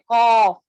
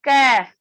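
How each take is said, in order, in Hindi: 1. k ध्वनि भारी और मोटी है। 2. k ध्वनि बहुत हल्की और पतली है। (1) "मोटा नहीं पढ़ना है, कौफ इस तरीके से भी नहीं" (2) "ज्यादा बारीक भी नहीं, कैफ इस तरीके से भी नहीं"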